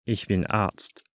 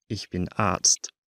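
Both takes have the same delivery.

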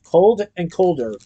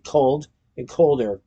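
First: "cold and colder" drawn out slowly, dry; slow, dry joke. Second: Said in the usual way. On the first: A narrator's reading. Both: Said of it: "was indeed cold and colder".

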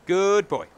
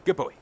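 First: Exaggerated RP "Good boy", higher and louder; RP accent. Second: Said in the usual way. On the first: Shown as a demonstration. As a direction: play up the Queen's English on "Good boy". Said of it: "pronounce the D when you say good boy". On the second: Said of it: "meant to also pronounce the D".

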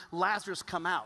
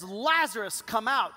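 First: Said in the usual way. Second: Slightly louder, firm call; commanding call to Lazarus; exclaimed command. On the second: Retold or imitated. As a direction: say it with an exclamation point. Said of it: "there's an explanation point after".

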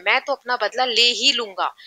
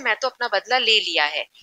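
First: ही said firmly with extra weight; strong emphasis. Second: Said in the usual way. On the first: Shown as a demonstration. Teacher demonstrating emphasis to the class, ही stressed. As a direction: hit ही hard, determined to take revenge. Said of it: "बहुत strongly बोल रहा है". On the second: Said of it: "इतना ज्यादा जोर देके नहीं बोल रहा है".

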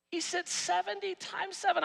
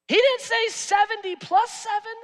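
First: "seven" landed with a falling tune, softer overall; the right version, calmly stating "seventy times seven"; stress on seven. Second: "didn't" hit hard and high, "seventy plus seven" the wrong version; wrong version set up with a loud "didn't"; stress on didn't. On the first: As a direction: settle it firmly on "times seven". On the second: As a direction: correct the misreading by leaning on "didn't". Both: Shown as a demonstration.

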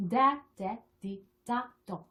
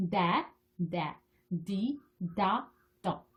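First: Syllables run off faster, shorter gaps; quick syllable drill. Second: Slow, separate syllables with pauses between; slow syllable drill. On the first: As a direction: rattle through the blended sounds. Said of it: "빨리 발음할 수 있도록". (음절을 빨리 이어서 발음하기) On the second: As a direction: sound out each syllable on its own. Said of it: "그래서 빨리 발음할 수 있도록". (한 음절씩 천천히 끊어 읽기) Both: Shown as a demonstration.

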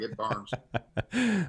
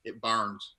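First: Laughing. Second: Said in the usual way. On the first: Retold or imitated. Laughing retelling of burning taste.

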